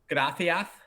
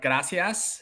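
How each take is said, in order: First: The s sounds like an English th. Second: The s sounds like a plain s. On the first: This is how people speak in Spain. "Spain Spanish because all the S's are are with the the th sound" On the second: This is the Spanish the speaker is used to. "instead of uh, like gracias"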